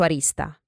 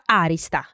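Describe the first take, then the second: First: The stress is on the second syllable. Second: The stress is on the first syllable. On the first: This is how it is said in the south. "Io pronuncio arista, perché al sud si pronuncia così" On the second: This is how it is said in Tuscany. "in Toscana no, si pronuncia arista, con l'accento sulla A"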